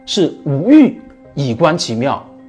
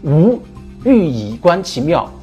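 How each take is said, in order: First: There is a pause right after 欲. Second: There is a pause right after 无. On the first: Without desire one perceives the subtlety of the Way. "那断句呢就又不一样了" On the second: From non-being one perceives the subtlety of the Way. "一种是这么断句的"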